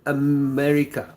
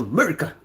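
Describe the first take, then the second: First: "America" with a held m. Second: "America" squashed into "Murica"; quick "Murica" for "America"; shortened America. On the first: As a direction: stretch "America" out, lingering on the m. Playing with pronunciation of America. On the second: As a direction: say "America" without its first vowel, as "Murica". Repeats it in clipped form. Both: Pretend.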